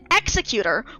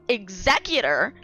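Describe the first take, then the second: First: The stress is on the first syllable. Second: The stress is on the second syllable. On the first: Someone who puts people to death. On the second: Someone who carries out legal matters like wills.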